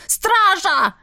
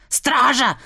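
First: Now really bellow for the guards; shouting for guards. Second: First call for guards. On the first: Baron yells for the guards again, much higher. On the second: Baron calls the guards, first moderate shout. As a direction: call the guards, still holding back. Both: A narrator's reading. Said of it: "заорал барон".

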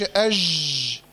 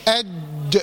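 First: أج with ج drawn out as a long zh hiss; low, slow أج, sound running on through ج; lax running jeem. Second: أج with the ج fully stopped, then bounced free; lower-pitched أج, hard closure and echoing release on ج; qalqalah on jeem. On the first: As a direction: let the ج in أج leak into zhhh. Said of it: "ما تقولش أج". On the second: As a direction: make the ج in أج shut and pop. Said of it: "القلقلة، اللي هو الاضطراب في مخرج الحرف". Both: Shown as a demonstration.

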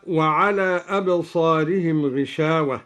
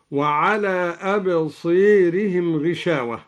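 First: Said in the usual way. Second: Long alif of "أبصيرهم" tilted toward an "ee", like "absēirihim"; imala. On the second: Shown as a demonstration. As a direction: bend the long vowel before the r in "أبصيرهم" to "ē". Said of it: "بإمالة الألف قبل الراء المتطرفة". (إمالة الألف قبل الراء في "أبصيرهم")

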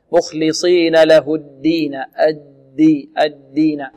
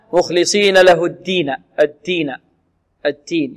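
First: Slow الدين with a buzzing, doubled d; fully voiced daal. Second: الدين with the d sounding close to t; devoiced daal. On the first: Teacher modelling the correction, clearly voiced d. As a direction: voice the d of الدين firmly. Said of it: "المحافظة على جهر الدال". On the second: Teacher imitating students' common mistake, d turned nearly t. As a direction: harden الدين towards at-teen. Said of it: "يأتون بالدال قريبة من التاء". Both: Shown as a demonstration.

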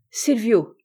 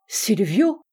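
First: Said in the usual way. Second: Astonished exclamation. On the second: A narrator's reading. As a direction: cry SILVIO with a rising, questioning end. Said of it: "s'écria le comte".

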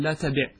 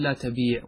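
First: "لا تبع" with short i before final ʕayn; short vowel. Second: "لا تبيع" with long ee before final ʕayn; long vowel. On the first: Teacher gives the corrected form, "تبع" with short i. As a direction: clip the i in "تبع": la tabiʕ. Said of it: "وإنما تقول". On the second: Teacher shows the rejected form, "تبيع" with long ee. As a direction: draw out the ee in "تبيع". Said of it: "فأنت لا تقول". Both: Shown as a demonstration.

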